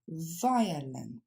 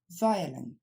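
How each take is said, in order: First: It is said slowly, syllable by syllable. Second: It is said more quickly as one word. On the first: "on le décompose" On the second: "Plus rapidement"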